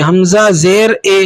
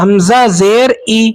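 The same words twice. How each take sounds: First: اے said as an open "ay"; majhul vowel. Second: ای said as a pure "ee"; slow teacher's demo with "ee" on ای; ma'ruf vowel. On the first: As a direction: end حمزہ زیر اے on "ay" instead of "ee". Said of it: "اور مجہول ہوتا ہے یہ". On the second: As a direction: end حمزہ زیر ای on a clear "ee", never "ay". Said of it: "اسے کہتے ہیں معروف پڑھنا". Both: Shown as a demonstration.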